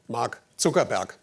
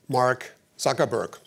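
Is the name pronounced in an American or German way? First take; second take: German; American. First: The name is pronounced the German way. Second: The name is pronounced the American English way.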